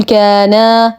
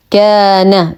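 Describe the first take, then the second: First: كان said as "kaanaa", final a stretched long; wrongly lengthened ending. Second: كان as "kaana", the final a kept short; short final fatha. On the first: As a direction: demonstrate the mistake: draw out the last vowel of كان like a dual. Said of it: "ولا أقول كان فتصبح وكأنها مثنى". (مد فتحة نون كان خطأً كالمثنى) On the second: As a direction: chant كان slowly but cut the last a short. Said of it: "كان فتحة فقط". (فتحة قصيرة فقط على نون كان) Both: Shown as a demonstration.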